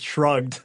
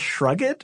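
First: The word is a single syllable with no extra ending. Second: The ending is a separate syllable, rhyming with rugged. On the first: The speaker calls it right. "obviously it's shrugged" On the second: The speaker calls it wrong. "my dad used to pronounce shrugged, like rugged"

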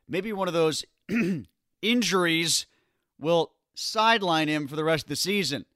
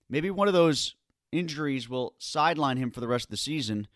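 First: It is said in a knowing, insinuating tone. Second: It is said in a plain, matter-of-fact tone. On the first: The team might use an injury as an excuse to bench him. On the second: An injury might genuinely end his season.

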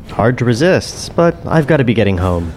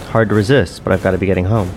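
First: The voice is a put-on character voice. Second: The voice is the speaker's ordinary natural voice. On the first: It is the character Clark speaking. "Show me how a Clark voice sounds" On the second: It is the speaker himself speaking. "This is my voice"

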